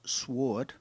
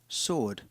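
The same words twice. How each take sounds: First: The w sound is pronounced. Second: The w sound is not pronounced. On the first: The speaker calls it wrong. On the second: The speaker calls it right. "Silent W"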